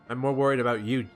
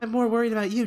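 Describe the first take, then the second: First: It is said in the previous character's voice. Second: It is said in another character's voice.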